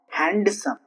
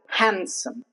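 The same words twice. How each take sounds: First: The D sound is pronounced. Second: The D sound is silent. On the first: The speaker calls it wrong. "It's not handsome" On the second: The speaker calls it right.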